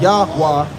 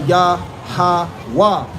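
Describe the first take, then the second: First: The name is said in two syllables. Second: The name is said in three syllables. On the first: The speaker calls it wrong. "So it's not Yahweh" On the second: The speaker calls it right. "it's actually Yah-ha-wah"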